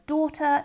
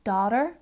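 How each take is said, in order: First: "daughter" as "daw-tuh"; long aw in "daughter", no final r; speaker's own accent. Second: "daughter" as "dah-der"; another accent. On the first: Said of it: "in my accent". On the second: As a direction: open ah and sounded final r in "daughter". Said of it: "this could also sound like". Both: Shown as a demonstration.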